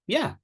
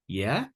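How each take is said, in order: First: The pitch falls at the end. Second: The pitch rises at the end. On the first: It simply means yes. "yeah means yes" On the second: It shows interest in what was said. "Shows interest with a rising intonation"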